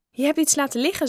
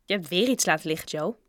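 First: High-pitched, lively call-out; higher and louder, alerting a friend; pointing out litter. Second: Said in the usual way. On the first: A narrator's reading. Bob pointing out litter to Joe, high and lively.

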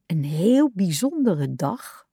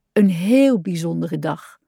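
First: Slow, sulky grumble under the breath; mock the phrase, disappointed and slow; a child's sulky mutter; grumbling. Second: A content frog in bed. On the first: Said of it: "mopperde hij". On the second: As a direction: savour the phrase at bedtime. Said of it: "dacht hij tevreden". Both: A narrator's reading.

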